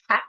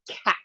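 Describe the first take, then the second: First: The first sound is a t made at the front. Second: The first sound is a k made at the back.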